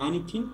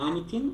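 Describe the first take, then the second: Both takes have the same delivery.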